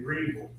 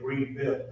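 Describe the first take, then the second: First: The last syllable is reduced to 'vul'. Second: The last syllable is a full 'ville'. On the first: The speaker calls it right. "they say Greenville. So I say like Green Bullion" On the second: The speaker calls it wrong. "I used to say Greenville"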